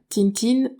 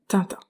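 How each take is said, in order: First: The name ends with a clearly sounded n. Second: The name ends with a nasal vowel. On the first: The speaker calls it wrong. "on ne dit pas Tintine" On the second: The speaker calls it right. "on dit Tintin"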